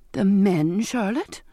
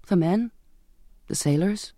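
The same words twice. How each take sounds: First: Mother's incredulous disapproval; disapproving. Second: Hesitant, rising on each phrase; mildly tentative daughter's reply; tentative answer. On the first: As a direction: query it with a frown, pushing MEN. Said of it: "my mother said with a frown". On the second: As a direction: offer it cautiously, with a pause between. Daughter answers her puzzled brother. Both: A narrator's reading.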